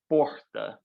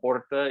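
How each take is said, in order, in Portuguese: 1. O som do R é bem prolongado. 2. O som do R é simples e curto. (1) "mais puxado" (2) "acho que vocês falam porta"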